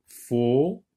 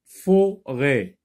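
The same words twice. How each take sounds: First: "forêt" slowly split fo... rêt; rising "fo", long gap, then "rêt"; two syllables, stretched. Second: "Forêt" as louder fo... rêt; "fo", short gap, "rêt"; two syllables. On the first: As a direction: hold a long pause inside "forêt". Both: Shown as a demonstration. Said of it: "dans la deuxième syllabe".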